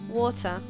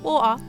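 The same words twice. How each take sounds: First: The middle T sound is clearly pronounced. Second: The middle T sound is dropped.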